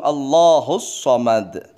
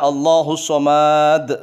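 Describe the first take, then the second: First: The vowel in Somad is cut short. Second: The vowel in Somad is drawn out long. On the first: The speaker calls it right. "Tapi langsung Allahus Somad" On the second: The speaker calls it wrong. "Jangan sampai Allahus Somad, salah"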